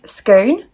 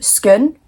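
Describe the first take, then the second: First: It is said in an Australian accent. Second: It is said in a Scottish accent. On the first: "I was like trying to do it with an accent" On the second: "in Scotland, we would call a place that's spelled Scone"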